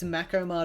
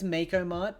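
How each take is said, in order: First: The first syllable sounds like 'mack'. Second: The first syllable sounds like 'make'. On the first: "both are very valid depending on your uh, region" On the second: "closer to make"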